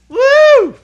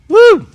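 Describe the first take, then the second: First: It is said with lots of energy. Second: It is said with little energy.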